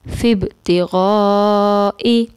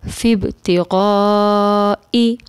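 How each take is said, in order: The two takes are said the same way.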